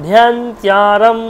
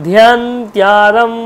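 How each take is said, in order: No difference in how they are said.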